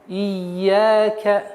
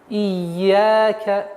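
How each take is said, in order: Both takes have the same delivery.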